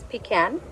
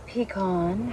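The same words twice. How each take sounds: First: "pecan" said pee-KAN; pecan with short A. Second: "pecan" said pee-KAHN; pecan with AH ending. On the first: Offering viewers one way to say pecan, pee-KAN. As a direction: say "pecan" ending like "can". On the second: Offering viewers the other way to say pecan, pee-KAHN. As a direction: say "pecan" with a long open AH at the end. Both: Shown as a demonstration. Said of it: "however you like to say it".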